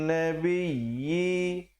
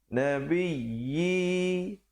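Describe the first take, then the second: Both takes have the same delivery.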